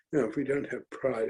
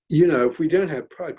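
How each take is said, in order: First: Softer and faster, dropping back; softer, quicker repeat. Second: Louder, rallying emphasis on pride; emphatic. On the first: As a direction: let it fall away quickly. Repeats rallying line, softer. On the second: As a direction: drive the point home. Repeats rallying line. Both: Acted.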